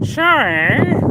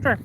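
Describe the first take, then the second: First: Long, very high, rising mock "sorry?"; uncomprehending "sorry?". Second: Quick, clipped mock "sorry"; fast "sorry". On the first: Imitating someone who really didn't understand, drawn-out high "sorry?". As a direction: exaggerate total incomprehension, stretched and swooping up high. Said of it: "You really didn't understand". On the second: Showing his pal's three sorries, the fast one. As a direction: toss off a very fast imitated "sorry". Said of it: "like, a fast one".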